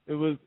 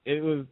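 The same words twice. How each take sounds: The two takes are said the same way.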